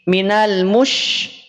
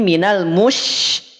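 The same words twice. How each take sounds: First: The sh is made with lips pushed forward. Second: The sh is made with relaxed, unrounded lips. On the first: The speaker calls it wrong. "Jadi tidak minash, minal mush ... Tidak demikian" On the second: The speaker calls it right. "tapi minal mush"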